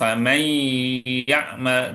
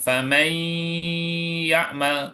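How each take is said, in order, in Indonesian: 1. Dengungnya ditahan dengan panjang yang normal. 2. Dengungnya ditahan terlalu lama. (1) "jadi benar"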